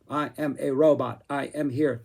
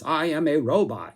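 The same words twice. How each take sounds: First: A lightly stilted robot voice with clipped-off word endings; half-hearted robot impression, choppy and stiff; staccato robot voice. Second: Lightly done stereotypical robot, only a hint of staccato; a mild hint of a clunky machine voice. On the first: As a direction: chop the last sounds off each word like a cheap robot. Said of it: "staccato, stilted, cut off those last syllables". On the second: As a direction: say it like a toy robot without fully committing. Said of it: "robotic voice". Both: Shown as a demonstration.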